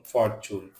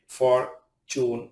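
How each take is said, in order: First: Said in the usual way. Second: "fortune" broken into two drawn-out syllables; "fortune" with a gap between syllables; split syllables. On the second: Shown as a demonstration. Word split by syllable, then whole.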